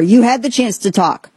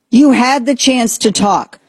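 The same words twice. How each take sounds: First: "You" leaned on, the rest dropping; first pass at "You had the chance to talk"; first telling of the line. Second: "You" hit harder and higher, every word slowed; slow, pointed repeat of "You had the chance to talk"; slow emphatic repeat. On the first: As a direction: stress on YOU, falling. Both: Retold or imitated. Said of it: "and now Trump says".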